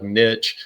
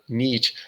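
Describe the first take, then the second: First: It is said in a country boy accent. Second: It is said in a standard, non-country accent.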